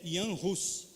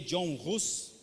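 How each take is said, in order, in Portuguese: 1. O primeiro nome é pronunciado do jeito tcheco. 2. O primeiro nome é pronunciado do jeito inglês. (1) "a pronúncia é Jan Hus" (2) "a gente lê John Hus, mas ele não é inglês"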